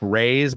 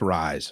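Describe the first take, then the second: First: The vowel sounds like the one in 'day'. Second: The vowel sounds like the one in 'eye'. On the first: The speaker calls it wrong. "I believe I pronounced it R A, like Raise, but it's not" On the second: The speaker calls it right. "It's Rise"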